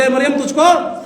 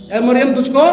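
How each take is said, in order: First: A little louder, rising on तुझको; said loudly. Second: Said in the usual way. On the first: Shown as a demonstration. Preacher asks the church to say it loud, loud call. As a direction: call out "ए मरियम तुझको" with force. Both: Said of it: "जोर से बोले".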